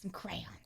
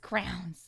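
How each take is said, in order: First: The word sounds like 'crayons'. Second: The word sounds like 'crowns'. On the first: This is the self-corrected way. The speaker calls it right. "my brain auto corrected it" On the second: This is the everyday habitual way. The speaker calls it wrong. "I say crowns my whole life"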